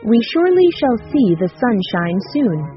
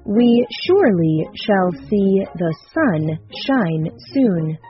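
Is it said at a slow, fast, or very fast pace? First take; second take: very fast; slow. First: It is said at a very fast pace. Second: It is said at a slow, careful pace.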